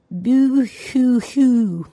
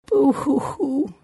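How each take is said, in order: First: Very slow, higher, trying out the sob; a child testing how crying sounds, drawn out; very slow pretend boo-hoo, trying it on; experimental boo-hoo. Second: High, slow sung-out boo-hoo; a child playing at crying; high, slow pretend blubbering; mock sobbing. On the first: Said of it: "and then experimentingly". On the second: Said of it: "she cried". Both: A narrator's reading.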